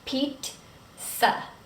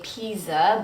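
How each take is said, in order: First: The middle consonant sounds like ts. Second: The middle consonant is not a ts sound. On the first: The speaker calls it right. "but it's pizza. Pizza. Sounds like T S" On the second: The speaker calls it wrong. "a lot of times I hear people say pizza"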